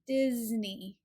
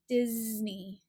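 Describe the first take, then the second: First: The middle consonant is a buzzing Z sound. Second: The middle consonant is a buzzing Z sound.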